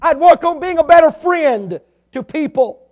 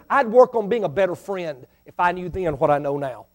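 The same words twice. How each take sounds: First: Preaching shout. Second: Said in the usual way. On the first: Real, not acted. I'd work on being a better friend.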